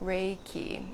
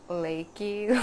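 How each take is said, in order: First: It is said with a common anglicized pronunciation. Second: It is said with the original Japanese pronunciation. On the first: The speaker calls it wrong. "Like it got mispronounced" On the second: The speaker calls it right. "it's actually pronounced Reiki"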